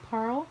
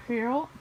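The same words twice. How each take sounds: The two takes are said the same way.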